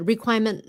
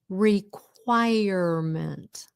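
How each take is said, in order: First: One sound in the word is dropped. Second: Every sound in the word is kept. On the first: The speaker calls it wrong. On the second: The speaker calls it right.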